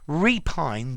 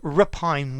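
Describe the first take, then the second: First: The first vowel is a full, stressed 'ee'. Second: The first vowel is weak and reduced. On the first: "the E when it, I'm stressing it" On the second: "but repine when I'm not"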